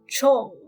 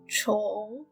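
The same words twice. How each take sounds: First: The syllable is said without a marked tone. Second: The syllable is said with a rising tone.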